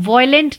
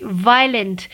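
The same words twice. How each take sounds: First: वायलेंट misread as "VOY-lent"; wrong pronunciation. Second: वायलेंट said as "VY-lent"; correct pronunciation. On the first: Teacher warns learners how not to read the word, mispronounced as "voy-lent" for वायलेंट. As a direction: say वायलेंट with an "oy" in the first syllable. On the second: Teacher gives learners the right reading, वायलेंट pronounced "vy-lent". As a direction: say वायलेंट with a long "eye" in the first syllable. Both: Shown as a demonstration. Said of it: "इसको वायलेंट नहीं पढ़ते".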